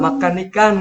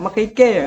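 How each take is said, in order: First: Both words end with a clear n sound. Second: Both words end in a vowel without n. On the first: This is the standard Malaysian way of saying it. "kalau Malaysia kan kayak gue" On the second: This is how it is said in Kelantan Malay. "di sana itu Melayu Kelantan itu"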